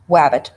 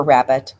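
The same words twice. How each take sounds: First: "wabbit" with w for r; R distortion. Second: Said in the usual way. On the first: Shown as a demonstration. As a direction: say "wabbit", r turned to w. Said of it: "a distortion of R". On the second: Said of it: "wabbit for rabbit".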